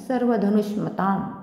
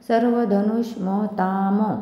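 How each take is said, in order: First: The final m has no following vowel. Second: The final m is followed by a vowel. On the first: The speaker calls it right. "इथे हलंत असल्यामुळे" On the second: The speaker calls it wrong. "आता जर म जर पूर्ण असता तर कसं उच्चारण झालं असतं?"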